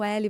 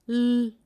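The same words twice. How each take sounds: First: The full letter name is spoken with vowels. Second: Only the bare consonant sound is spoken. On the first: The speaker calls it wrong. "você não ouve o L" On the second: The speaker calls it right. "você ouve L"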